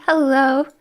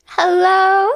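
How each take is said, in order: First: Said in the usual way. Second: Higher and louder, sung out; excited hello. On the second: Shown as a demonstration. Streamer greets chat again, louder and excited. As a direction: call the hello out to everyone.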